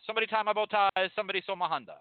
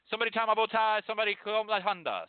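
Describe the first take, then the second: The two takes are said the same way.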